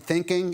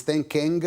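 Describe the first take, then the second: First: Said in the usual way. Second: "thinking" ending in a sounded hard G; hard final G. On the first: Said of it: "if he said it wasn't thinking". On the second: Retold or imitated. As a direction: imitate a Mississippi boy's "thinking", popping the G at the end. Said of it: "he had this hard G at the end".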